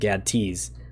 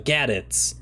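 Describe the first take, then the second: First: It is said as gad followed by tees. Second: It is said like the word gadgets. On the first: The speaker calls it wrong. "apparently that's not how you pronounce it" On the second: The speaker calls it right. "I gotta get used to that"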